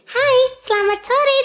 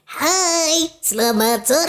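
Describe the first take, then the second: First: It is spoken in a shrill, high voice. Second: It is spoken in a throaty voice. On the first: "kita mau pakai yang melengking gitu ya" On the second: "Nah itu pakai suara tenggorokan kita"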